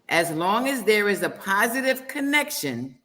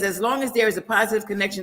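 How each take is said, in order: First: It is read slowly. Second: It is read at normal speed.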